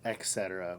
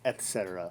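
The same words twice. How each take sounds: First: The word begins with an 'ek' sound. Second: The word begins with an 'et' sound. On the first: The speaker calls it wrong. "with an X. There's no such thing" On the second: The speaker calls it right. "with a T"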